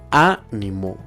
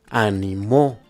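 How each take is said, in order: First: The stress is on the third-to-last syllable. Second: The stress is on the final syllable. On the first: It is a noun. "si se encuentra en la antepenúltima sílaba, sonará de la siguiente forma" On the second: It is a past-tense verb in the third person. "si se encuentra en la última sílaba, sonará de la siguiente forma"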